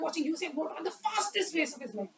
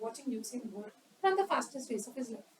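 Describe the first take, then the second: First: It is spoken quickly with high energy. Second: It is spoken slowly with low energy. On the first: The delivery matches a sprint. The speaker calls it right. "More appropriate. This is the best" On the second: The delivery does not match a sprint. The speaker calls it wrong. "this is more appropriate for a marathon"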